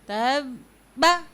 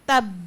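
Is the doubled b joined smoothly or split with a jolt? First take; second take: jolted; smooth. First: Loosely joined, then the b is jerked out. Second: The doubled b is held firmly in one join. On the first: The speaker calls it wrong. "तब आराम से मिला दिया, ढीलेपन से मिला दिया, और फिर बा उसको झटके से पढ़ दिया" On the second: The speaker calls it right. "शिद्दत इख्तियार की, स्ट्रेस लिया"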